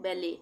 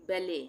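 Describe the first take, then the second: No difference in how they are said.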